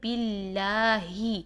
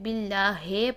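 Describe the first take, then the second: First: The word ends with an 'ee' sound. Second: The word ends with an 'ay' sound. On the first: The speaker calls it right. "पढ़ेंगे बिल्लाही" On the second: The speaker calls it wrong. "ही को हे पढ़ देते हैं"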